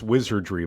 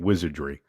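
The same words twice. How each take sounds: First: The R sound in the word is pronounced. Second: The R sound in the word is dropped. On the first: The speaker calls it right. "I think I mispronounced wizardry" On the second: The speaker calls it wrong. "by saying wizardry. I dropped the R"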